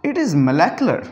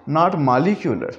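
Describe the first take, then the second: First: Molecular said as molæklə; correct molecular. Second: Molecular said as malikjulə, the wrong way; mock the wrong molecular, slowly. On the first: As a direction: molecular with a short open middle. (सही उच्चारण: मोलैक्लर) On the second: (गलत उच्चारण: मॉलिक्युलर) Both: Shown as a demonstration.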